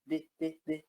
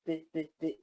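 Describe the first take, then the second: The two takes are said the same way.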